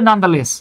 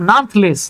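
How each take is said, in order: First: The middle syllable is clearly said. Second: The middle syllable is squeezed out. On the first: The speaker calls it right. "এটাকে আপনার পড়তে হবে" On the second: The speaker calls it wrong. "আমি এটাকে পড়তাম নানথলেস"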